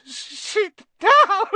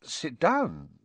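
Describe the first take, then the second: First: Very high, loud tearful elf wail. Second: Polite, gentle invitation. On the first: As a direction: burst into a drawn-out squealing wail. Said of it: "he wailed". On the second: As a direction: offer a seat courteously. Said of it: "said Harry politely". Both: A narrator's reading.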